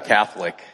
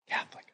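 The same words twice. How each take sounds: First: The word is spoken in a full voice. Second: The word is whispered very softly.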